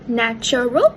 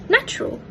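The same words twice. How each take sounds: First: Every syllable is pronounced in full. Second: The middle vowel and r sound are dropped. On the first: "in careful speech" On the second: "with the schwa and r sound omitted"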